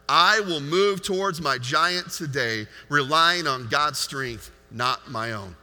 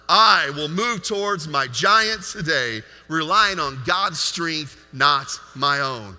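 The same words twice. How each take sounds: First: It is said calmly, without extra force. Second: It is said forcefully, with passion.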